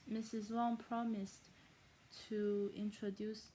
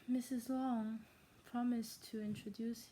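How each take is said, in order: First: It is said in a stereotypical Asian accent. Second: It is said in the speaker's plain accent.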